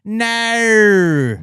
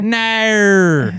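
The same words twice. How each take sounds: First: "No" drawn out much higher and louder, Aussie style; mock Australian "No". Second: "No" stretched much higher and louder in a mock Aussie accent; mock Australian "No". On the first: Mocking how Australians say "No" with a loud, high mock Aussie accent. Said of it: "When they say". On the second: Answering a friend's question in a loud, high, hammed-up Aussie accent. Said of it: "That's how I would say it in Australian".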